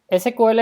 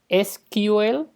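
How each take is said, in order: First: It is pronounced the Spanish way. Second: It is pronounced the English way. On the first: "es como todo el mundo lo pronuncia en español" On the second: "en inglés lo suelen pronunciar de dos formas"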